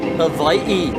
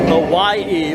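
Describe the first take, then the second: First: It is said the native Hawaiian way. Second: It is said the everyday English way. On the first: The speaker calls it right. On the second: The speaker calls it wrong.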